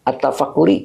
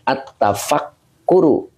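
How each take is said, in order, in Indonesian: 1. Kata ini berakhiran vokal 'i'. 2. Kata ini berakhiran vokal 'u'. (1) "nggak bisa dibaca at-tafakkuri" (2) "Jadi dibacanya at-tafakkuru"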